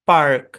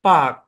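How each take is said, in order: First: American accent, the r sound is pronounced. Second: British accent, the r sound is silent. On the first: "American ইংলিশে এই শব্দের উচ্চারণ হবে পার্ক" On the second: "British ইংলিশে এই শব্দের উচ্চারণ পাক ... কোনো আর উচ্চারণ হবে না"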